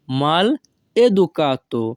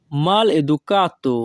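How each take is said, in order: First: Mal educato with a clear pause after "mal"; word by word. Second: Said in the usual way. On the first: Shown as a demonstration. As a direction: say "mal", stop, then "educato". Teacher repeats phrase split for learners.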